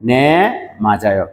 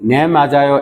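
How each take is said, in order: First: There is a pause after the first word. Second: The two words run together without a pause. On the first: The speaker calls it right. "আপনাকে বলার ক্ষেত্রে রিডিং এর ক্ষেত্রে কিন্তু থামতে হবে।" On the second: The speaker calls it wrong. "এরকম ভাবে পড়বেন না।"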